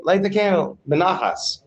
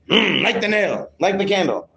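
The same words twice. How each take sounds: First: Calm request, not an order; calm, gentle instruction. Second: Grunt, then a higher-pitched order; bossy demonstration of how not to ask; commanding, overlording. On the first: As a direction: demonstrate asking peacefully and without force. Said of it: "He has to say it calmly". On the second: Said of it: "He can't say it like that". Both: Shown as a demonstration.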